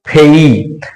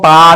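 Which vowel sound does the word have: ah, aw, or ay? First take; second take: ay; ah. First: The vowel glides from 'e' to 'ee'. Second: The vowel is a plain open 'ah'. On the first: The speaker calls it right. "तो इस P A Y को हम क्या पढ़ेंगे? फेई।" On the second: The speaker calls it wrong. "इसको हम पा नहीं पढ़ेंगे"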